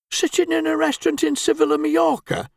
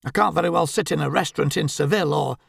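First: Much higher, derisive echo of her words; scoffing. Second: Said in the usual way. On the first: Acted. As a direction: throw her words back in mockery. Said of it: "scoffed Albert".

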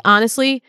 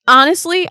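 First: Said in the usual way. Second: High, loud honestly still carried by the laugh; excited restart after laughing; emphatic. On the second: Real, not acted. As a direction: burst back in with honestly, pitched up and louder.

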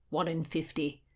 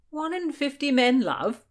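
First: Said in the usual way. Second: High, loud query on "One in fifty men love?"; "One in fifty men love?" with raised, querying pitch; questioning. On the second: A narrator's reading. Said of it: "William asked".

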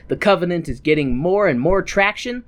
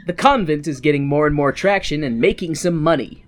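First: "Covenant" said instead of "convent"; slip saying Covenant. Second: "convent" said right, KON-vent; corrected word convent. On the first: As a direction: read "Covenant" by mistake, plain. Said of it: "I think I said Covenant". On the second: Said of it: "I think I said Covenant. The convent". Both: Real, not acted.

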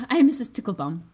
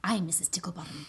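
First: Ticklebaum said carefully and a bit louder; Ticklebaum, the corrected reading; corrected name. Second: Ticklebottom said as a slip of the name; a mix-up, Ticklebottom for Ticklebaum; misread name. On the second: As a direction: read the name as Ticklebottom by mistake. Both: Shown as a demonstration. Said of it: "Actually, sorry, Ticklebaum".

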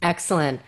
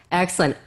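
Both takes have the same delivery.

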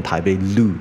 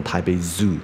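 First: "Loo" with L in place of Z; wrong L sound. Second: "Zoo" with a buzzed Z onset; correct Z sound. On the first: Teacher showing students the mistake, L-onset "Loo". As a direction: say "台北Loo", tongue flicking on the L. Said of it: "它不是念台北Loo". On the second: Teacher modelling the station announcement, buzzed "Zoo". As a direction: say "台北Zoo" with a clear Z, no L. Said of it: "它是念台北Zoo". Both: Shown as a demonstration.

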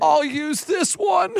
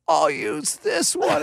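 First: High, slow, brave little declaration; dramatic kid. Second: High, slow, solemn little pronouncement; dramatic kid. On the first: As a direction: play the tiny actor recovering. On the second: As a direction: deliver it like a tiny actor. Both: Retold or imitated. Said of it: "exact dramatic pause".

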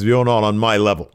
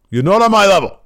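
First: Said in the usual way. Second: High, loud British put-down; bad British Gradwell voice. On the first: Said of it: "and then he says". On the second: Wrestler dismissing Trent Seven, loud bad British shout. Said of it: "my Gradwell voice".

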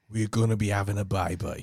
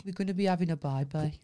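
First: Low-pitched Brummie impression; Brummie accent. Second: Quicker, lower Brummie echo; low-pitched Birmingham accent. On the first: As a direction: put on a Birmingham accent, pitched down. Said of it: "Someone says, "Say, say we're". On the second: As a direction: echo it back in brisk Brummie. Echoes the accent demo back. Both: Shown as a demonstration.

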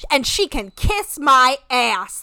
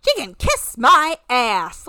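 First: Slow, drawn-out "And she can kiss my ass." with a heavy stress on "she"; mocking slow delivery. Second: Slow, louder "She can kiss my ass." with the stress on "She"; mocking slow delivery. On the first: Host mocking Larissa's weak burn, slow and heavy on "she". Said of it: "that's such a whack-ass burn". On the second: Host mimicking Larissa's line to mock it, slow, leaning on "She". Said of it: "Like, grow up". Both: Shown as a demonstration.

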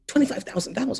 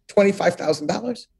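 First: Softer, savoring the amount in disbelief; hushed awe. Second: Said in the usual way. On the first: Retold or imitated. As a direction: say it quietly as if amazed. Repeating the salary in disbelief.

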